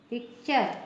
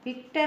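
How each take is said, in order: First: The ending is pronounced 'cher'. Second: The ending is pronounced 'ter'. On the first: The speaker calls it right. "पिक्चर पढ़ेंगे" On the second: The speaker calls it wrong. "पिक्टर नहीं पढ़ेंगे"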